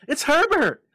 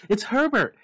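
First: Even higher, louder scream. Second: High, loud desperate scream. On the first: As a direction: scream it with everything. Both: A narrator's reading. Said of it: "she screamed".

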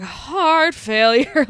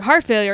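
First: "Heart failure." dragged out very slowly, rising at the end; rattled, slow repeat. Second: Said in the usual way. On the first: Retold or imitated. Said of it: "he's really rattled". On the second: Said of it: "and he's like".

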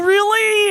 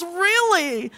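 First: Surprised question. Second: Flat sarcastic reply. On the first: She reacts to his pain. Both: Retold or imitated.

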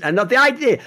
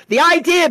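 First: Said in the usual way. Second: "the idea" jumps much higher and louder; "the idea" pitched way up and loud on the repeat; emphatic repeat. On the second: Real, not acted. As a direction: hammer "the idea" the second time. Repeats phrase in heated rant.

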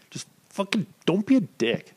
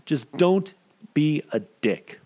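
First: Sudden high-pitched emphasis; high emphatic. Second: Slow, drawn-out emphasis; slow and deliberate. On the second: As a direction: spell it out very slowly. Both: Shown as a demonstration.

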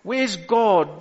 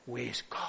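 First: Said in the usual way. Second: Hushed, very soft demon's taunt; mock demon whisper. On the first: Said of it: "when you say stuff like". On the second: Demon whispering doubt into a believer's ear, hushed mock whisper. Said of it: "demons whispering in your ears and say".

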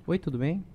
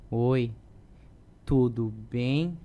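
First: Said in the usual way. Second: "Oi, tudo bem?" slow and sneering, drawn-out rise on "bem"; mocking tone. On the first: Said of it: "O tipo, por exemplo". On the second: Shown as a demonstration. Actor demonstrating a mocking line reading at the table. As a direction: say "Oi, tudo bem?" with growing mockery, slowly. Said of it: "começou com deboche e mais deboche".

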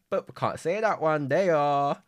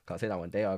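First: Higher and louder, playfully withholding; loud teasing singsong. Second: Said in the usual way. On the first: Pretend. Podcaster teasing listeners about a secret plan, loud and playful.

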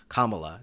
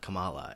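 First: "Kamala" as KAH-muh-luh, first syllable stressed; KAH-ma-la pronunciation. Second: "Kamala" as kuh-MAH-luh, middle syllable stressed; ka-MAH-la pronunciation. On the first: Host fighting to say it right, "Kamala" as KAH-muh-luh. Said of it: "fighting in my own head to say". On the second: Host rejecting the wrong version, "Kamala" as kuh-MAH-luh. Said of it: "not Kamala". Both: Shown as a demonstration.

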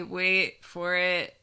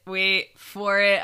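First: Slow teasing wait; teasing build-up. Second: Louder teasing wait; louder build-up. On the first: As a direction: draw it out slowly. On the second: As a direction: push it out louder. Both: Real, not acted.

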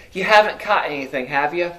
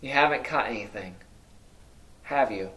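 First: Said in the usual way. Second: Softer, faster, said as a plain statement; quieter flat statement. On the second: Shown as a demonstration. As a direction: drop it low and quick, no real question. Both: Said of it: "written more like a statement".

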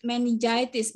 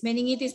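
First: "meningitis" said "men-in-JAI-tis"; English pronunciation. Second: "meningitis" said "me-ning-EE-tis"; "meningitis" with ng, no j sound; Indonesian pronunciation. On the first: English term, then Indonesian one. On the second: Repeats the term in Indonesian. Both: Shown as a demonstration.

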